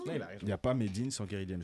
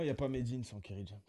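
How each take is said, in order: First: It is said louder, straight into the microphone. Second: It is said at a normal volume.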